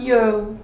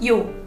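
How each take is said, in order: First: The vowel trails off into an ooh sound. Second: The vowel ends short and clean. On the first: The speaker calls it wrong. "not yo" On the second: The speaker calls it right. "It's just 요"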